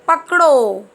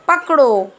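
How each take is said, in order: Both takes have the same delivery.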